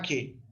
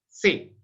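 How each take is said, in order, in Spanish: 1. El nombre empieza con un sonido k fuerte. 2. El nombre empieza con un sonido s. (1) "si uno está usando la pronunciación clásica, lo llama que" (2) "una pronunciación hispanizante, lo puede decir se"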